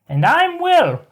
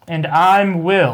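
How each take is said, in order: First: It is said in a put-on high-pitched voice. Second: It is said in an ordinary speaking voice. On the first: "with the high pitch behind it" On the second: "You can use your normal voice"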